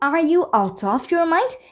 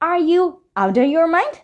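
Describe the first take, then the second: First: "Out of" is said as two full words. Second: "Out of" is reduced to "outta". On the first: "এই আউট অফ না বলে" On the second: "informal কন্ট্রাকশনটা ব্যবহার করে এভাবে উচ্চারণ করে বলতে পারি"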